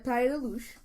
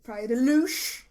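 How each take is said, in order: First: Luz is said plainly, without extra emphasis. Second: Luz gets heavy emphasis, like the documentary guy.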